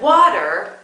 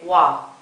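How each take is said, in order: First: The word is said with both syllables. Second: The final syllable is cut off. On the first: The speaker calls it right. "Instead of water" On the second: The speaker calls it wrong. "you might say wa"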